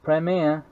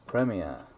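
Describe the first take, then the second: First: It is said with an American pronunciation. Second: It is said with a British pronunciation. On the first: The speaker calls it wrong. "You say Premier incorrectly" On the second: The speaker calls it right. "as in Premier League"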